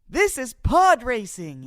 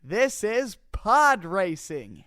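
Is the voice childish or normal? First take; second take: childish; normal. First: It is said in a childish voice. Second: It is said in a normal voice.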